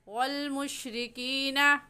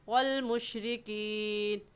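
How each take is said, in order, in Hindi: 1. अंत में अ स्वर है, आगे से मिलाकर पढ़ा जाता है। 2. अंतिम न पर रुकता है, कोई स्वर नहीं। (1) "मिलाकर पढ़ूँगी" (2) "यहाँ पर वक्फ कर लूँगी"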